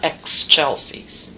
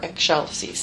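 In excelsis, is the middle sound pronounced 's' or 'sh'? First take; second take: s; sh. First: The middle sound is said like s. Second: The middle sound is said like sh. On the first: The speaker calls it wrong. "not excelsis" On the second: The speaker calls it right. "Just eggshell for excelsis"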